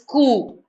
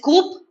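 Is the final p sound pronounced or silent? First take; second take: silent; pronounced. First: The word ends in a vowel, p silent. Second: The word ends with an audible p sound. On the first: The speaker calls it right. "it's pronounced as coup" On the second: The speaker calls it wrong. "You don't pronounce it as coup"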